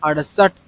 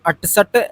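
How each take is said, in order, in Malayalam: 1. നടുവിലെ വ്യഞ്ജനം d ശബ്ദമാണ്. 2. നടുവിലെ വ്യഞ്ജനം കടുപ്പമുള്ള t ശബ്ദമാണ്. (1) "ഇത് ഡ് എന്നൊരു ഉച്ചാരണത്തിൽ വരണം" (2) "അങ്ങനെ വായിക്കരുത്"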